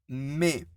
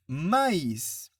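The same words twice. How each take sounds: First: "mais" as one syllable, like mè; silent i in mais. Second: "maïs" in two syllables, ma-is; sounded i in maïs. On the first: Teacher contrasting without tréma, "mais" as one syllable mè. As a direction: say "mais" with no separate i or final s. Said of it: "Je ne prononce pas les i". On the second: Teacher showing the tréma, "maïs" with separate i. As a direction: say "maïs" slowly, sounding the i and final s. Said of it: "je dois prononcer le i". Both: Shown as a demonstration.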